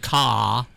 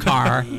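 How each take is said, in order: First: The final r sound is dropped. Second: The final r sound is pronounced. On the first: "those in Rhode Island say ca" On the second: "instead of car"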